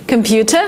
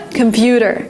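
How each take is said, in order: First: "computer" with a clear t, rising; T pronounced as T. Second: "computer" said "compyooder". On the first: Teacher contrasting for learners, clear-t "computer". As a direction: sound the t in "computer". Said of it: "with the T". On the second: Teacher contrasting for learners, "compyooder". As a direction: soften the t of "computer" to a d. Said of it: "you pronounce it as D". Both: Shown as a demonstration.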